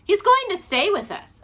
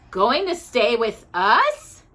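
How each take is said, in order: First: High, loud excited announcement; announcing. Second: Slow disbelieving question, rising at the end; incredulous. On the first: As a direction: proudly announce the news, voice up high. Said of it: "announced Judy". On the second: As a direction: repeat the news as if you can't believe it. Mrs Bird repeats in disbelief. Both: A narrator's reading.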